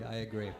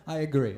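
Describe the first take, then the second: First: Soft laughing aside. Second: Said in the usual way. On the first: Real, not acted. To the head-shaking listener, a soft laughing aside. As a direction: mutter it again under a laugh, much softer. Agreeing again, much softer.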